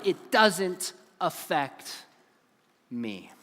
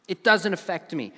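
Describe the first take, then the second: First: "doesn't" stretched very slow, falling; drawn-out doesn't. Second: Said in the usual way. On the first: Shown as a demonstration. Speaker mocks the teen's excuse, slow stress on "doesn't". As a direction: lean slowly into "doesn't", let "me" drop away.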